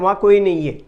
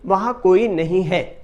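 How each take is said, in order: First: It is said fast with sounds run together. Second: Every sound is pronounced fully and carefully. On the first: "जब जल्दी में कहा जाता है" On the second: "प्रत्येक अक्षर का वैसे ही उच्चारण"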